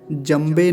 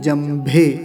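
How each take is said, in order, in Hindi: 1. बीच का व्यंजन अल्पप्राण b है। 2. बीच का व्यंजन महाप्राण bh है। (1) "जंबे नहीं" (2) "भकार का विशेष ध्यान रखना है"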